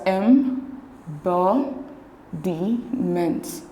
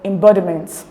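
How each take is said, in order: First: Slow, split into syllables with pauses between; em, bo, di, ment, each part separated. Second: EmBODiment, weight on "bo"; stress on second syllable. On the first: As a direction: break it up as em... bo... di... ment. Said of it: "divide the words into syllables". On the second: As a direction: lean on the "bod" in embodiment. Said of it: "when you pronounce the word embodiment". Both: Shown as a demonstration.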